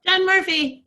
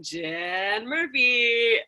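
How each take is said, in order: First: Loud, high, bright game show name call; game show announcer. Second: Slow, drawn-out game show name imitation; imitating game show call. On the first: Real, not acted. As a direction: announce your name like a prize winner. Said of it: "cute, like, game show ring to the way you say your name". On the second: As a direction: stretch the name out like a host. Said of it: "I can always hear you going".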